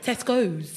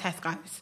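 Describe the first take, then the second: First: It is said in an upper-class accent. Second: It is said in an ordinary everyday accent. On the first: It is now an upmarket shop, a class thing. "You'll say it differently, like, Tesco's" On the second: It is just an ordinary supermarket. "Instead of going to Tesco's"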